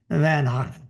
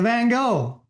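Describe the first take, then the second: First: The name has a Dutch pronunciation. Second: The name has an English pronunciation.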